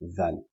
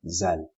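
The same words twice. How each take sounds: First: The first sound is a soft th sound. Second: The first sound is a buzzing z sound. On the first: The speaker calls it right. "the tongue has to be out" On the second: The speaker calls it wrong. "If it stays inside, it's going to be zal"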